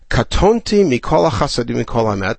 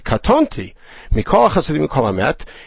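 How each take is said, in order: First: Katonti runs on with hardly any pause. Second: A longer pause comes after katonti.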